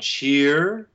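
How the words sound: Closed vowel followed by an r-coloured schwa. "In North American pronunciation, we would have probably most people would transcribe a closed E and then a rhotic schwa"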